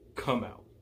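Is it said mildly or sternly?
sternly. It is said sternly and forcefully.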